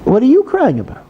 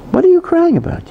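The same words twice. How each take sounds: First: Pitched up, pressing the question; incredulous comrade. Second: Much higher, puzzled challenge; soldier's comrade asking why he cries, higher and incredulous. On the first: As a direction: comrade repeating his puzzled question to the crying soldier. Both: Retold or imitated. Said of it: "And his comrade said to him".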